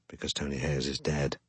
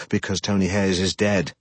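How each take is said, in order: First: Lower, much softer throwaway mutter; muttered under breath. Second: Said in the usual way. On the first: A narrator's reading. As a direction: mutter it to yourself. Repeated aside, dropped low.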